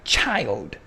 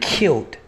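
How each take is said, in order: First: The word begins with a ch sound. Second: The word begins with a hard k sound. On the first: The speaker calls it wrong. "It's not child. That's English perversion of languages" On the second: The speaker calls it right. "if you want to pronounce child correctly in its proper pronunciation, it's killed"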